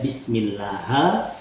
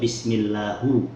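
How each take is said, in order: First: The word ends with an a vowel. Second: The word ends with a u vowel. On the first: "Ha atau hu itu adalah lahan" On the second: "Ha atau hu itu adalah lahan"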